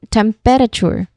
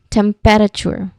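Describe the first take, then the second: First: The word is said with four distinct syllables. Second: The word is said with four distinct syllables.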